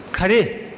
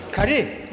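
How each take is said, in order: First: Khare said plainly, voice dropping at the end; falling tune. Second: Khare lifting at the end like a question; softer Khare with the voice going up; rising tune. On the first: Debate coach showing students a difference, falling Khare. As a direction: let Khare fall like a flat statement. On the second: Debate coach showing students a difference, rising Khare. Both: Shown as a demonstration. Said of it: "There's a big difference".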